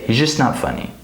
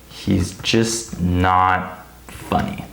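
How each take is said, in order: First: The word 'just' is quick and reduced. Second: The word 'just' is pronounced fully and clearly.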